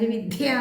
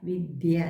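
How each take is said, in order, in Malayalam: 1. 'd' ശബ്ദം കടുപ്പമായി ഉച്ചരിക്കുന്നു. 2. 'd' ശബ്ദം മൃദുവായി ഉച്ചരിക്കുന്നു. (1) "ആൾക്കാർ വിദ്യ എന്ന് പറയും" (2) "ദ എന്നുള്ളത് മൃദുവായിട്ട് ഉച്ചരിക്കേണ്ടതാണ്"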